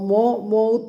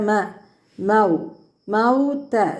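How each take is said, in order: First: The first vowel is a rounded o sound. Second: The first vowel is an open a sound. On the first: The speaker calls it wrong. "മോ മൗത്ത എന്നുള്ള രീതിയിൽ പറഞ്ഞു പോകാൻ പാടില്ല" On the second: The speaker calls it right. "മൗത്ത മീമിന് ഫത്തഹയാണ്"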